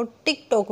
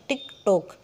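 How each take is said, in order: First: Said in the usual way. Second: "TikTok" split as टिक, टॉक, lower; two separate sounds. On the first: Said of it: "वैसे तो word तो एक है". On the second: Shown as a demonstration. Teacher shows one word, two sounds, "TikTok" split. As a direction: pause inside "TikTok" after टिक. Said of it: "sound है उसमें दो हैं".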